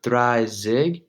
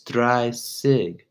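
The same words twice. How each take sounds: First: The middle consonant is said like a z. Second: The middle consonant is said like an s. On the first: The speaker calls it wrong. "So it's not Dreizig" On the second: The speaker calls it right. "It's pronounced s"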